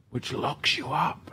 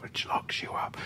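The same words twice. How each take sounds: First: Much softer, drawing in; hushed. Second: Breathy whispered repeat. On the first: Dramatic sermon point. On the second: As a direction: whisper it like a secret. Dramatic sermon point whispered. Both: Acted.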